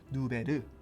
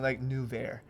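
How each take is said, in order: First: The name is pronounced the Korean way. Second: The name is pronounced the traditional English way. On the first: "you know how the Koreans pronounce it" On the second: "in English we'll keep it traditional"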